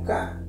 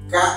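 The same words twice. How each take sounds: First: The vowel ends plainly without a glottal catch. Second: The vowel is cut off with a glottal catch. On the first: The intended meaning would not be understood. The speaker calls it wrong. "Si no le agregamos la glotal, solo sonaría como K" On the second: It means horse. The speaker calls it right. "acá dice K, que en traducción es caballo"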